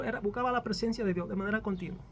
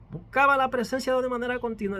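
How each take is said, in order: First: Said in the usual way. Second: "Buscaba" hit hard, whole line louder; emphatic repeat. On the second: Shown as a demonstration. Preacher repeats it louder to the church. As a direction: drive the repeat home to the congregation.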